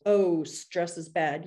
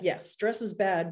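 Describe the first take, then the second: First: Slow, shrugging "Oh, stress is bad." as if it is nothing; a mock shrug of a line; dismissive mock quote. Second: Said in the usual way. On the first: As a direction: brush "Oh, stress is bad." off slowly and lightly. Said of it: "It's not just".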